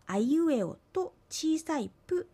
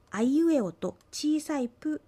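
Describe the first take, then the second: No difference in how they are said.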